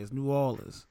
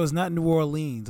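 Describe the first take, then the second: First: New Orleans run together as "new AW-lins"; local pronunciation. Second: New Orleans with a long "leenz"; wrong pronunciation. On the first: Explaining to Leo, New Orleans with short reduced ending. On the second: Explaining the mistake to Leo, New Orleans with "leenz". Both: Shown as a demonstration. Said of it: "I learned the hard way".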